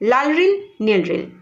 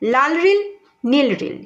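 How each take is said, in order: First: The phrase is said at a quick pace. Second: The phrase is said at a slow, careful pace.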